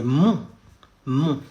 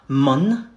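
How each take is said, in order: First: "mon" as a nasal "on" with no n sounded; French nasal vowel. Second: "mon" said like "mun", with a sounded n; wrong English vowel. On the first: Teacher explaining O and N, "mon" with a French nasal vowel. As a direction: say "mon" through the nose, leaving the n silent. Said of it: "O and N makes mon". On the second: Teacher showing learners the mistake, "mon" with a hard n. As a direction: mispronounce "mon" with an English n at the end. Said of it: "And not mon". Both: Shown as a demonstration.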